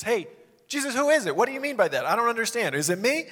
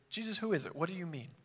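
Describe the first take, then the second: First: Loud, high, insistent questioning; confident outright asking. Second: Softened, confidential question; mock whisper. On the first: Acted. Disciple openly asking Jesus who will betray him, loud and insistent. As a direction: demand answers openly, raised voice and pitch. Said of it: "didn't have the confidence to just ask". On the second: Disciple leaning up to Jesus at the table, hushed. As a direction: ask privately in a hushed voice. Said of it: "leaned up to whisper and said".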